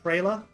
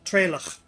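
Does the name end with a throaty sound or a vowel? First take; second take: vowel; throaty sound. First: The name ends on an open vowel. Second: The name ends with a throaty rasping consonant. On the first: A simplified form of the name. "I call him Trela, because this is a form of his name" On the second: The name's actual pronunciation. "The actual pronunciation is Trela, and then clear your throat"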